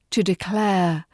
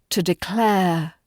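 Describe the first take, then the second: No difference in how they are said.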